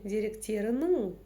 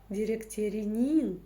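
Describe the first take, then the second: First: The vowel is said halfway between hard and soft. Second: The vowel is said very soft, like Russian и. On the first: The speaker calls it right. "вот та самая средняя мягкость" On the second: The speaker calls it wrong. "через мягкую-мягкую букву «и»"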